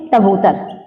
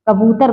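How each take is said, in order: First: तबूतर starting on T instead of K; child's lisp. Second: Said in the usual way. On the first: Shown as a demonstration. Teacher answers as the child would, lisped तबूतर. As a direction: swap the first K for T in तबूतर. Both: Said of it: "क्या बोले".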